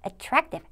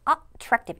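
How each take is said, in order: First: The first syllable is light and unstressed. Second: The first syllable is stressed strongly. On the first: The speaker calls it right. "살짝 얹힌 느낌으로 attractive 이렇게" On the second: The speaker calls it wrong. "여기 A를 너무 강하게 attractive 이렇게 하지 마시고"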